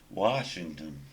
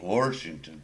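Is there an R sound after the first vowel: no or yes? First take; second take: no; yes. First: It is said without an added R sound. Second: It is said Indiana-style with an added R.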